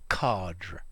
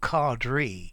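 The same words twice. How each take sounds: First: It is said in a British RP accent. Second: It is said in an American accent. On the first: "as an R P speaker, I'm going to use the word cadre" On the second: "I've heard quite a lot of them Americans cadre"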